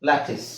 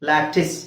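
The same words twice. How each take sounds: Both takes have the same delivery.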